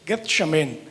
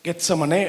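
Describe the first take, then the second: First: The name ends in a consonant, 'shemen'. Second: The name ends in a vowel, 'samane'. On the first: This is the original Hebrew form of the name. "எபிரேயத்தில் சொல்றேன்" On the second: This is the local Tamil form of the name. "தமிழ்ல சொல்லுவோம்"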